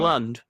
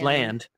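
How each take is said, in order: First: The vowel is a short 'uh' sound. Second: The vowel is an open 'a' sound. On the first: The speaker calls it wrong. "you don't say Lund. It's not Lund or Lind" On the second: The speaker calls it right. "It's land"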